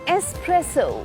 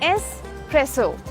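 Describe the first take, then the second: No difference in how they are said.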